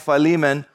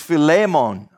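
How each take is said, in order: First: The name is said with a plain English pronunciation. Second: The name is said with a Greek-style pronunciation. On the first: "I'll probably just be saying" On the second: "The correct pronunciation in the Greek is"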